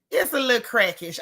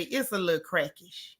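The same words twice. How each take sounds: First: Laughing it out. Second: Said in the usual way. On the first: Real, not acted. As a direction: repeat through laughter. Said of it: "I, that, yeah". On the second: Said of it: "[name] say".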